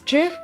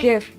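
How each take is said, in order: First: It begins with a J sound. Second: It begins with a hard G sound. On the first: The speaker calls it wrong. "there is also possible to pronounce it as" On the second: The speaker calls it right. "I pronounce it as"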